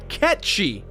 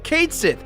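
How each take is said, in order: First: The name sounds like 'Ketshi'. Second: The name sounds like 'Cait Sith'. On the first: This is the correct pronunciation. The speaker calls it right. "the correct pronunciation is in fact Ketshi" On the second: This is how the game says it. The speaker calls it wrong. "The game calls Cait Sith Cait Sith"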